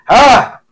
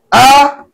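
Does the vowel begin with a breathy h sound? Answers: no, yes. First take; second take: yes; no. First: The vowel starts with a breathy h sound. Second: The vowel starts firmly with no h sound. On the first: The speaker calls it wrong. "Ay may H kagad, kailangan mo pang i-improve" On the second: The speaker calls it right. "Kailangan yan matigas ang pantig"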